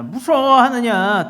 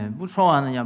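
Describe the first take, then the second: First: High, loud, drawn-out rebuking question; forceful rebuke. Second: Said in the usual way. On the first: Acted. Preacher as Jesus challenging fearful disciples, forceful rebuke.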